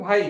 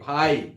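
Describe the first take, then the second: First: The final vowel is short and unstressed. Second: The final vowel is long and stressed. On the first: This is the Nagpuri way of saying it. "लेकिन नागपुरी में भाई कही जा" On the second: This is the Hindi way of saying it. "ई कर उच्चारण में बल लाइक है भाई"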